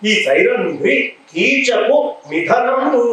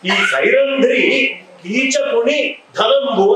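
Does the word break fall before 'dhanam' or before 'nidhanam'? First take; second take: before nidhanam; before dhanam. First: The words are split as 'keechaku nidhanamu'. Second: The words are split as 'keechakuni dhanambu'. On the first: She is Keechaka's death. The speaker calls it right. "కీచకుడి పాట చావు" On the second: She is Keechaka's wealth. The speaker calls it wrong. "ఆమె కీచకుడి ధనం అవుతుందా?"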